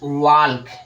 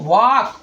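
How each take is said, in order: First: The L sound is pronounced before the K. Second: The L sound is silent, no L heard. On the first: The speaker calls it wrong. "पहला वाला आपका बिल्कुल भी गलत है" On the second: The speaker calls it right. "यल आपका silent हो जा रहा है"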